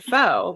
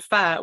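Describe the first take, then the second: First: Pho is said like 'foe', rhyming with 'oh'. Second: Pho is said like 'fuh', with a short vowel. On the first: The speaker calls it wrong. "If you pronounce it incorrectly" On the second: The speaker calls it right. "if you pronounce it right"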